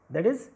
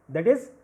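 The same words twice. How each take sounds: The two takes are said the same way.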